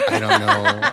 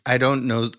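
First: "I don't know" squeaked out far higher through laughter; a giggling, pitched-up "I don't know"; laughing. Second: Said in the usual way. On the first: Real, not acted. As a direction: laugh it out helplessly. Repeats the line laughing.

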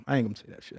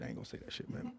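First: Said in the usual way. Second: Breathy whisper to himself. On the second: Real, not acted. Streamer muttering to himself off-mic, whispered. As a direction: hush it like a secret aside. Self-censoring, repeats it hushed.

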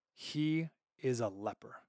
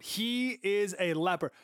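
First: Slow solemn verdict. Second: Slow emphatic verdict. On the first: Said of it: "final thing said about Uzziah". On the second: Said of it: "That's like his gravestone". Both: Shown as a demonstration.

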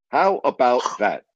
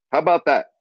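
First: Said in the usual way. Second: Delighted emphatic how about that. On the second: Real, not acted. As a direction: punch the word about, pitch up.

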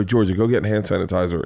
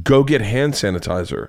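First: Said in the usual way. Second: Slow, spaced-out dad command; firm repeated order. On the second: Retold or imitated. Dad insisting after daughter balks, slow and firm. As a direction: imitate a dad spelling out an order.

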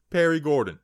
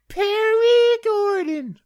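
First: Said in the usual way. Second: Very high, loud, stretched-out yell; drawn-out announcer holler. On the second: Pretend. Host thanking a show supporter, hammed-up high holler. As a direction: holler the name slowly, way up high. Sponsor name hollered, then said normally.

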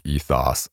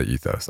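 First: "ethos" ending in a short, open "oss"; British ethos. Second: "ethos" ending in a long "ohss"; American ethos. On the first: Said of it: "I think the British pr-, pronounce it more like". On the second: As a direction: say "ethos" as EE-thohss, second vowel as in "go". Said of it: "we tend to say ethos". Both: Shown as a demonstration.

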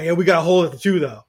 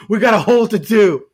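First: Mock fan whine. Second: Louder, laughing through the mock complaint; laughing mock whine. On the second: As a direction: crack up while mocking the fans' whine. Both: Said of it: "and then people cry".

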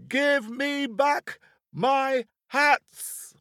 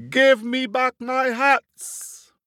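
First: Very high, drawn-out, slow furious yell; top of his voice. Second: Loud, slow, high furious yell; angry shout. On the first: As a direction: stretch every word in a livid scream. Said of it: "shouting at the top of his voice". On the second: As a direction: bellow it up at the monkeys in a rage. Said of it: "and he shouted at them". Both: Acted.

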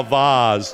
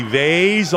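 First: "vase" said as VAHZ; vase rhyming with "Oz". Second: "vase" said as VAYZ; vase rhyming with "days". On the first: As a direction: say "vase" with an open AH as in "spa". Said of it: "the accent your mother wants you to use". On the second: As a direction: say "vase" with a long A as in "face". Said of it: "the accent out on the street and then the accent". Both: Shown as a demonstration.

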